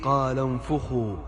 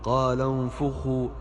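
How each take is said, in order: First: The f sound is followed by a u vowel. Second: The same.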